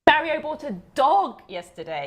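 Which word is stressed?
dog. The stress falls on the word dog. It was a dog, not a frog.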